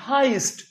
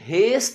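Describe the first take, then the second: First: The vowel sounds like 'eye'. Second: The vowel sounds like 'eh'. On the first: The speaker calls it right. "इसका actual में pronunciation होता है हाइस्ट" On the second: The speaker calls it wrong. "इसका pronunciation हेस्ट नहीं होता"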